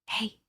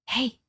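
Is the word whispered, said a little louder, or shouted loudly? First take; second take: whispered; little louder. First: It is whispered softly. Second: It is said a little louder.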